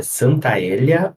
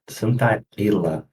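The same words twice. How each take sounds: First: Santaella with an open É in "ella"; first guessed pronunciation. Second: Santaella drawn out, with a closed Ê in "ella"; second guessed pronunciation. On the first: Podcast guest unsure of a researcher's surname, trying open-E Santaella. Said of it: "eu não sei se é". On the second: Podcast guest unsure of a researcher's surname, slowly trying closed-E Santaella. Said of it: "não sei pronunciar". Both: Shown as a demonstration.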